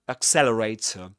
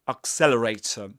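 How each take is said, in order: The two takes are said the same way.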